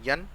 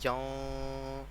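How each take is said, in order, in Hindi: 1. "n" सादा है, इसमें नासिक्य ध्वनि नहीं रोकी जाती। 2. "n" नासिकीकृत है और नाक में रोकी जाती है। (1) "इजहार में गुन्ना नहीं करना" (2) "ऐसे हमने गुन्ना कर देना था"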